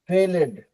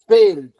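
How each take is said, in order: First: The ending is said as an extra syllable. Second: The ending is just a d sound. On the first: The speaker calls it wrong. "ऐसा नहीं होता है" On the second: The speaker calls it right. "थोड़ा fast हो जाता है"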